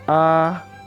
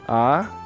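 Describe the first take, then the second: First: The pitch stays high and level. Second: The pitch rises from middle to high. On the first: "Nada satu, iseng" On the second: "Nada dua, erseng"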